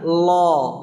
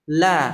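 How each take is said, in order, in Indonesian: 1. Bunyi L tebal, dengan pangkal lidah diangkat. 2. Bunyi L tipis, dibuat dengan ujung lidah. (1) "kalau tebal, angkat pangkal lidahnya" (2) "kalau lamnya tipis, itu kita hanya menggunakan ujung sisi lidah"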